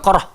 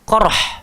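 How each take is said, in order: First: The final h is a plain, light breath. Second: The final h is harsh and deep in the throat. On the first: The speaker calls it wrong. "Dia bukan ha simpul, bukan qarh" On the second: The speaker calls it right. "dia kena ha pedas ni"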